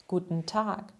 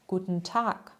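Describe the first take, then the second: Both takes have the same delivery.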